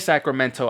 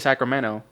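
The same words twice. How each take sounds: First: The middle consonant is a clear T sound. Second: The middle consonant sounds like a D. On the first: "supposed to say Sacramento. We don't say. I don't say Sacramento" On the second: "I say Sacramento with the D"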